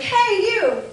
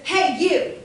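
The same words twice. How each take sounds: First: Bright, high, loud call of hello; excited greeting. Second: Loud, sharp, confronting hey; aggressive call. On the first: Teacher calling to a student in the hallway, excited. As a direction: greet a friend you're thrilled to see. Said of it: "I'm excited, I wanna talk to you". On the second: Teacher demoing a confrontational hallway call, angry. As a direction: challenge them like picking a fight. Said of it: "I'm angry or aggressive". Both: Shown as a demonstration.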